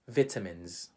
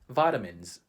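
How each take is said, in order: First: It is said with a British English pronunciation. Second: It is said with a Filipino English pronunciation. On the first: "But how do Brits pronounce that word?" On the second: "How do Filipinos pronounce that word? We would say"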